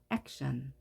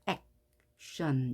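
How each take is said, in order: First: Said in the usual way. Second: "action" broken as ac, pause, tion; split syllables. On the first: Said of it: "이렇게요". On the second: Shown as a demonstration. Teacher divides between consonants, "action" with a gap after ac. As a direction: say "action" in two separate pieces. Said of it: "갈라놓습니다".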